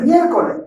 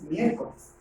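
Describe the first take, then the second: First: "miércoles" without its final S; final S dropped. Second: "miércoles" with its final S kept, lower and softer; final S pronounced. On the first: Teacher shows students what not to say, final S dropped. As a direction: say "miércoles" ending on an open E, no S. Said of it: "No dices miércoles". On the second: Teacher shows students the correct word, final S pronounced. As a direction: say "miércoles" low and quiet, ending on the S. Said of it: "le dices miércoles". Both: Shown as a demonstration.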